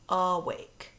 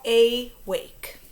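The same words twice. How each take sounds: First: The first vowel is a weak 'uh' sound. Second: The first vowel is a long 'ay' sound. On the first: The speaker calls it right. "one of our new rules talks about the schwa sound" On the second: The speaker calls it wrong. "let's say this word the way that it's coded"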